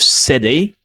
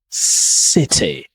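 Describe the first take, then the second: First: The middle consonant is a soft d. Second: The middle consonant is a hard t.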